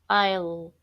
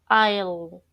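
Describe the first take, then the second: No difference in how they are said.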